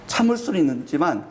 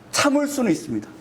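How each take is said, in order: First: Said in the usual way. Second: 참을 lifted high, then falling; emphasis on 참을. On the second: Shown as a demonstration. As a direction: push 참을 up to stress it.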